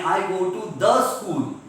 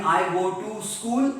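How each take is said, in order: First: THE stressed before school. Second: Said in the usual way. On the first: Shown as a demonstration. Teacher contrasts the two sentences for students, stress on THE. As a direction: lean on the word THE. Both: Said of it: "there is a difference between".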